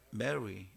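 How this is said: It is said with a native English-like r. The speaker calls it right. "훨씬 본토 발음이 가까워요"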